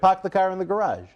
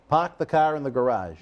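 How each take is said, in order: First: It is said with more force and energy. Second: It is said plainly, without extra force.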